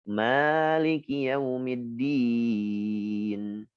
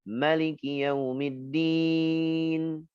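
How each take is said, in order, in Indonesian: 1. Vokal pertama Maliki itu panjang. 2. Vokal pertama Maliki itu pendek. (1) "Karena Asim itu pakai mad" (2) "Pendekkan dulu"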